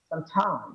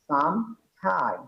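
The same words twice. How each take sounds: First: The words run together without any gap. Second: There is a short gap between the words. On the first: It means on some unspecified day. "ফাঁকা না রেখে আমি যদি একসাথে বলে দিই" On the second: It means for a period of time. "একটু মাঝখানে একটা ফাঁকা আছে"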